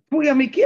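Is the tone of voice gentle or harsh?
harsh. The voice sounds harsh and scolding. The speaker feels put down. The speaker calls it wrong. "יש את הקול הזה שאומר"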